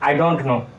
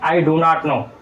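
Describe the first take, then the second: First: It is said quickly in a shortened form. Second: Each word is said fully and separately.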